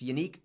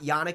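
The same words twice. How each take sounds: First: The name sounds like the word unique. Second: The name does not sound like unique. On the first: The speaker calls it right. "Like, unique. That's how it's said" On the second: The speaker calls it wrong. "it's not Yannick"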